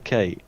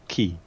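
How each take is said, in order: First: The letter is said like 'kay'. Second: The letter is said like 'key'. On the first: The speaker calls it right. "The letter K" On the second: The speaker calls it wrong. "she didn't know how the fuck to pronounce the letter K in English"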